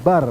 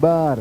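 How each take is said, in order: First: The vowel is kept short. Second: The vowel is stretched out long. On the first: The speaker calls it right. "Harusnya bar" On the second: The speaker calls it wrong. "bukan bar"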